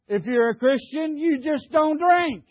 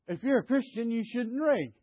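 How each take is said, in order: First: Louder, higher, punching DON'T DRINK; forceful preacher's restatement; emphatic repeat. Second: Said in the usual way. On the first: Real, not acted. Repeats after "Did you hear.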